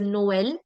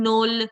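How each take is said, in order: First: The two vowels are pronounced as separate sounds. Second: The two vowels merge into one sound. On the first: The speaker calls it right. "pronounced separately" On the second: The speaker calls it wrong. "instead of this being nol"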